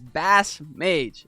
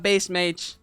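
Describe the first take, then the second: First: The first word rhymes with 'mass'. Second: The first word rhymes with 'face'. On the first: The speaker calls it right. "let the people know it is Bass Mage" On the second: The speaker calls it wrong. "It's not Base Mage"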